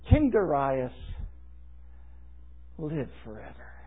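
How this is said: It is read with heavy, dramatic emphasis. A pointed flattery meant to sway the king. "allow me to read these words with a little different reading"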